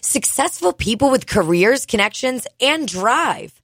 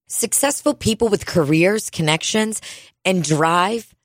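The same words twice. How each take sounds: First: It is read with excited exclamation inflection. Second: It is read in a plain, flat tone.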